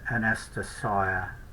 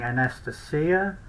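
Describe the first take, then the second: First: The letter i is said like 'eye'. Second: The letter i is said like 'ee'. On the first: "but I would probably pronounce that Anastasia" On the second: "I have been saying Anastasia"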